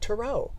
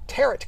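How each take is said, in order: First: The final T is silent. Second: The final T is clearly pronounced. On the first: It follows the French origin. "with the last T as silent" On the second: The speaker is from the Midwest. "with a hard T at the end"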